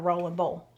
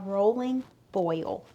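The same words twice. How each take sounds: First: It is said in her own local pronunciation. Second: It is said in a careful standard pronunciation.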